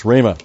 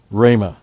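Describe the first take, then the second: First: Said in the usual way. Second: Rhema with a breathy guttural H at the start; rough breathing. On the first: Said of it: "I can't do it". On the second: Shown as a demonstration. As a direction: try to push a throaty H sound into rhema. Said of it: "got this H sound here".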